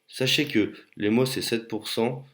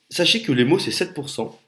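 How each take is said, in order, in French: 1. Elle est dite d'une façon plate et désengagée. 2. Elle est dite avec une énergie vive et engageante. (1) "je vous ai parlé avec un ton différent" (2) "dans ma première phrase, vous étiez connecté davantage"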